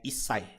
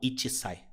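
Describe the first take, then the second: First: The number one is contracted before sai. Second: The number one is said in full before sai. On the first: The speaker calls it right. "ele é isai" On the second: The speaker calls it wrong. "e não ichisai"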